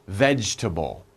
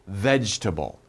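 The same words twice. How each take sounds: The two takes are said the same way.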